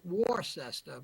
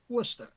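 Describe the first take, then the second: First: The name is said the way outsiders say it. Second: The name is said the way locals say it. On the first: The speaker calls it wrong. "some of you folks might pronounce it Worcester" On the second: The speaker calls it right. "but it's pronounced Worcester"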